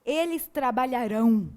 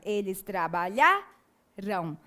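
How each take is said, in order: First: "trabalharão" said with the last syllable RÃO hit hard; future tense stress. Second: "trabalharão" slowly, stress on LHA, the second-to-last syllable, ending "ram" unstressed; slow "trabalharão" with the accent on trabaLHAram; past tense stress. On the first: Teacher showing students the future form, stress on the last syllable. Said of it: "a tonicidade recai sobre a última sílaba". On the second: Teacher showing students the past form, slow, stress on the penultimate. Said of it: "a sílaba tônica passa a ser a penúltima". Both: Shown as a demonstration.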